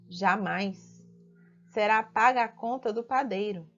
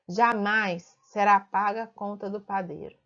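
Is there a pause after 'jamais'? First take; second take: yes; no. First: There is a break right after jamais. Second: It runs on with no pause after jamais.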